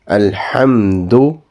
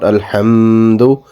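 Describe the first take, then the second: First: The m sound is kept short. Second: The m sound is held long. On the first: The speaker calls it right. "you do not prolong the, the sound of Meme" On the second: The speaker calls it wrong. "should not be prolonged. So it's not Alhamdu"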